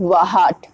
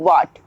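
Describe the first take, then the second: First: The word is said with an h sound. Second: The word is said with no h sound. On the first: The speaker calls it wrong. "ना कि वाहट" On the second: The speaker calls it right. "H हमारा silent हो गया"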